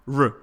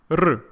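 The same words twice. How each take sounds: First: "R" smooth, without any trill; untrilled English R. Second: "R" with a short trill; Russian rolled R. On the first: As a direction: say "R" the English way, unrolled. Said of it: "not R". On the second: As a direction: roll "R" briefly on the tongue tip. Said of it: "try to say it like this". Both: Shown as a demonstration.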